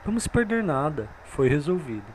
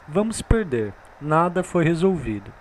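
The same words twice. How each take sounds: First: There is a pause after nada. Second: There is a pause after perder.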